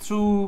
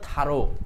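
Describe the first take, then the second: First: It is one syllable ending in an oo sound. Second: It is two syllables, tha then ro. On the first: The speaker calls it wrong. "এই থ্রু থ্রো সব উচ্চারণ হলো ভুল" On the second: The speaker calls it right. "এটা হলো থারো"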